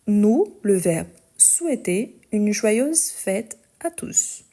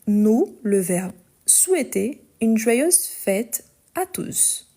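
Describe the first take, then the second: No difference in how they are said.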